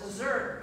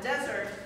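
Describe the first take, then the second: First: The stress is on the second syllable. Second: The stress is on the first syllable. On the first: It is a verb meaning to leave. "means to leave" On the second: It is a noun meaning a dry region. "is a dry region"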